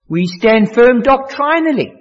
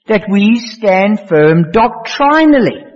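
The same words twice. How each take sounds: First: Said in the usual way. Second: Slow, every word of "stand firm doctrinally" weighed, doctrinally drawn out; stress on doctrinally. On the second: Shown as a demonstration. Preacher repeating his point to the congregation, slow and emphatic. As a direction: lay it down slowly and press doctrinally.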